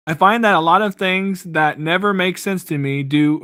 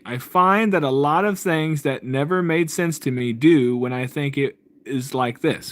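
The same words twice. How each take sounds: First: Said in the usual way. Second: Slow, careful reading aloud; read slowly. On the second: Shown as a demonstration. Reading a viewer's comment aloud slowly so it lands. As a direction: take each word slowly, like reading it out. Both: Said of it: "I'm gonna read this slowly".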